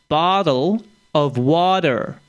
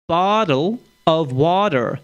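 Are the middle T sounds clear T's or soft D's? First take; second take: soft D's; soft D's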